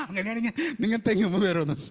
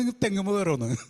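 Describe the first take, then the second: First: Quick, amused punchline with a laugh; laughing retort. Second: Said in the usual way. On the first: Shown as a demonstration. Preacher joking to the sisters about climbing coconut trees, laughing. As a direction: tease it with a chuckle. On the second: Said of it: "laugh on retake".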